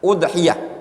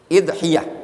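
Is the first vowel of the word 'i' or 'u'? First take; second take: u; i. First: The word begins with an 'u' vowel. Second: The word begins with an 'i' vowel. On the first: "bi dhammil hamzah, dengan mendhammah hamzah" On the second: "Bagaimana kalau di kasroh bacanya?"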